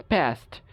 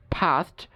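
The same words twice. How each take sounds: First: American ফাস্ট (past) as PEST, vowel of cat; American pronunciation. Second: British ফাস্ট (past) as PAHST; British pronunciation. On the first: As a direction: front A in ফাস্ট. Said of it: "আমেরিকানরা বলে এ". (ফাস্ট-এ অ্যা, American উচ্চারণ) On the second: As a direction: open AH in ফাস্ট. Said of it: "ব্রিটিশরা আ উচ্চারণ করে". (ফাস্ট-এ আ, British উচ্চারণ) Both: Shown as a demonstration.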